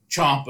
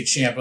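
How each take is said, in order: First: Ciampa with an open "ah", as CHOMP-uh; CHOMP-uh pronunciation. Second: Ciampa with a short "a" as in "champ"; CHAMP-uh pronunciation. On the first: Co-host quoting a commentator's version, Ciampa as CHOMP-uh. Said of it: "Booker T would say". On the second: Co-host quoting the rival version, Ciampa as CHAMP-uh. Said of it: "or he would say". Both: Retold or imitated.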